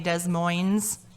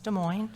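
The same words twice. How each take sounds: First: It is pronounced the way outsiders say it. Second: It is pronounced the way locals say it. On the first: The speaker is not from the area. The speaker calls it wrong. "Some people not from Iowa would probably say" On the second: The speaker knows the area. The speaker calls it right. "It's Des Moines"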